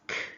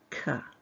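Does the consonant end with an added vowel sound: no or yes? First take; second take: no; yes. First: The consonant sound is said with no vowel after. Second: The consonant sound is followed by an added vowel. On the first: The speaker calls it right. "The phoneme for K is pronounced K" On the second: The speaker calls it wrong. "not K"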